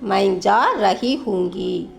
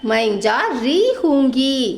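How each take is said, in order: First: The middle word is said in full as 'rahi'. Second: The middle word is shortened to 'ri'.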